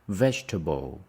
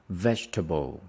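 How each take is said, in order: No difference in how they are said.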